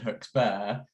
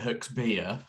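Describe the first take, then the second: First: The last syllable rhymes with 'bear'. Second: The last syllable rhymes with 'beer'. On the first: This is how the owners, who are not local, say the name. "Neither Ben nor Lucy are from Devon, so they've always said Huxbear" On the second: This is how local people say the name. "in Devon most Devonian people would pronounce it Huxbeer"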